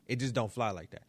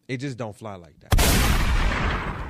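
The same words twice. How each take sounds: First: Said in the usual way. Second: Slow and loud, every word landed; "It just don't fly like that" said slowly and loudly; loud, slow emphasis. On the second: Acted. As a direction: drag it out loud like a verdict. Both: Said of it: "I'm sorry".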